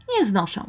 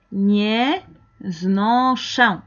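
First: Said in the usual way. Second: Slow syllables with gaps between; broken into parts. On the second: Shown as a demonstration. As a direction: model it piece by piece. Modela la palabra por partes. (pronunciado despacio, por partes)

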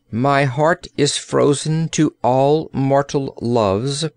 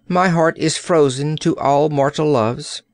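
First: Slow, measured, calm statement; calm announcement. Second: Firm statement at an ordinary pace; firm refusal. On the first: Princess declaring her heart frozen, calmly. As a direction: announce it calmly, taking your time. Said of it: "announced Gloria calmly". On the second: Princess rejecting the old courtier, firmly. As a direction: state it firmly, without lingering. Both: A narrator's reading.

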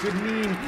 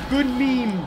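First: Said in the usual way. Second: Loud, higher shout; shouted catchphrase. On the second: Acted. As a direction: belt out the catchphrase. Meme catchphrase shouted louder.

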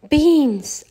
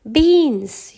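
First: High, loud, proud cry of beans; Mickey proudly showing off his beans; proud announcement. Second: High, loud, outraged yell. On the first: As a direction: announce it like a prize. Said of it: "announced Mickey proudly". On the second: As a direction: shout it in disbelief. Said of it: "yelled Donald". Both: A narrator's reading.

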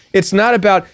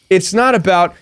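Both takes have the same delivery.

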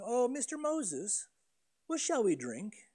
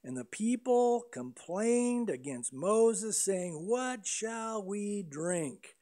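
First: A sweet, overly polite question, a little higher; sugary mock-polite "what shall we drink?"; mock polite asking. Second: A measured, slow reading of the complaint; slow, deliberate reading of "What shall we drink?"; slow scripture reading. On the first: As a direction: ask Moses nicely, pretending to be courteous. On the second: Acted. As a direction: read the verse very slowly, laying each word out. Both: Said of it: "don't think they're politely asking".

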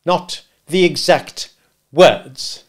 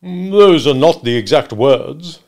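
First: Slow, loud, word-by-word echo; scornful repetition; bitter. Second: Slow, loud, rising reply; hedging witness. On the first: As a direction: throw the words back bitterly. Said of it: "repeated the gentleman bitterly". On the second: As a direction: stretch it out as you quibble. Wopsle hedges under questioning. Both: Acted.

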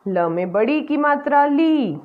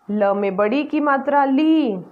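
No difference in how they are said.

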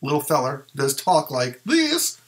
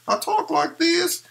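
First: Said in the usual way. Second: Much higher, slow dummy voice with a southern tinge; high ventriloquist figure voice; Lil Feller puppet voice. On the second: Shown as a demonstration. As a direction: pitch way up and speak as the puppet.

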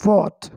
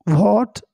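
First: "what" with a silent h, starting on a v-like w; correct "what". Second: "what" with an audible h after the w; wrong "what". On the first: Teacher correcting the faulty reading, h-less "what". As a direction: drop the h cleanly from "what". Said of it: "इसमें एच silent होता है". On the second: Teacher showing the faulty reading, h-sounded "what". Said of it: "गलत है". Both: Shown as a demonstration.

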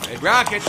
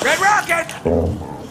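First: Said in the usual way. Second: Red Rocket stretched very slow and much higher; high drawn-out call. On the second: Acted. Deadpool calling out to the dog Red Rocket, slow and high. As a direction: sing the name out long to call the dog.

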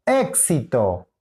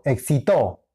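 First: "éxito" slow, stressed as EK-si-to; stress on first syllable. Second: "excitó" stressed as ek-si-TO; stress on last syllable. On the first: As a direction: draw out the opening EK of "éxito". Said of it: "aquí". («éxito» con acento en la primera: ÉK-si-to) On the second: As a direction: punch the final TO of "excitó". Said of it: "La ubicación del acento". («excitó» con acento en la última: ek-si-TÓ) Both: Shown as a demonstration.

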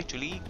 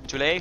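First: Tule said as TOO-lee, questioning; uncertain pronunciation. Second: Tule said as TOO-lay, questioning; uncertain pronunciation. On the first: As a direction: try Tule with an "ee" ending. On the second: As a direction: try Tule with an "ay" ending. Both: Shown as a demonstration. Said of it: "I don't know how to pronounce it".

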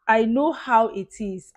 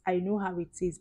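First: Emphatic. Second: Said in the usual way. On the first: Real, not acted. Repeats phrase with emphasis.

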